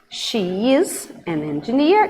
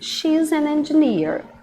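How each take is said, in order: First: The two words are said separately in full. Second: The two words merge into one contracted syllable.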